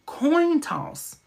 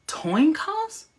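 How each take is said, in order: First: "Coin toss" with K first, T second, high then falling; carefully fix it to "Coin toss", falling tune; corrected pronunciation. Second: "Coin toss" swapped to "toin coss", high rising question; puzzled "toin coss?" for "Coin toss"; slip of the tongue. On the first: Host correcting own slip to "Coin toss", high and careful. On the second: Host catching own slip on "Coin toss", said as "toin coss", questioning. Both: Real, not acted. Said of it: "I'm telling y'all, I'm talking fast".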